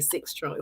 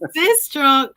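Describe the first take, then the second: First: The name is said the local way, like "six trunk". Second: The name is said the standard way, like "Sistrunk".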